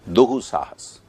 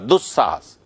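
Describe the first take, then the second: First: A slow, breathy h sound replaces the s. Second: A quick, crisp doubled s joins the two parts. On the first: The speaker is relaxed and loose. "बहुत धीमी गति से, जीभ पहुंच ही नहीं पाई" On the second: The speaker is strict and precise. "फटाक से जीभ ले जाके बोला"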